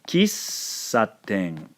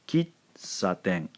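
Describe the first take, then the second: First: The s sound is held long. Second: A short stop comes before the s sound. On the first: The speaker calls it right. "Notice that I'm hovering here, sort of elongating the sound, the S sound" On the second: The speaker calls it wrong. "That is not how they pronounce it in Japanese"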